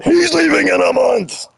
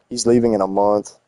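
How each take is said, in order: First: High, mock yelling the news; imitating a chatter who yells it, much higher. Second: Said in the usual way. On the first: Streamer mocking chat for yelling, high mock yell. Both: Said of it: "why he had to yell at".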